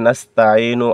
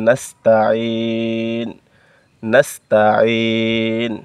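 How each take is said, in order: First: Said in the usual way. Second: নাস্তাইন with the last vowel dropped, held long at the stop; নাস্তাইন drawn out slowly and cut at the end; stopped on nastain. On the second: Shown as a demonstration. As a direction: stop on নাস্তাইন, no final u, stretch it out. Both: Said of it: "ওয়াকফ করলে নাস্তাইনু আর পড়বেন না".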